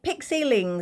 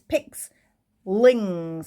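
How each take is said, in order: First: The name is said with three syllables. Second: The name is said with two syllables. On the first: The speaker calls it wrong. "I keep calling it Pixelings. It's not" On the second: The speaker calls it right. "it's Pixlings"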